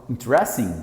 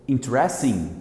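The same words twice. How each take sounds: No difference in how they are said.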